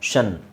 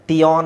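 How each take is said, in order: First: The ending starts with a 'sh' sound. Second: The ending starts with a 't' sound. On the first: The speaker calls it right. "ಷನ್ ಅಂತ ಹೇಳ್ತೀವಿ" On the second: The speaker calls it wrong. "ಟಿಯಾನ್ ಅಂತ ಬರಲ್ಲ"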